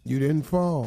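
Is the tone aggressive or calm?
calm. It is said in a calm tone.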